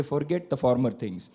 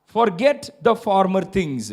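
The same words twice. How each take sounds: First: Said in the usual way. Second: "Forget the former things." slow with each word weighted; slow emphatic quote. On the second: Shown as a demonstration. Preacher to congregation, slow and weighted. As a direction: say it slowly and lean on each word. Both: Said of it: "Look at your friends and say".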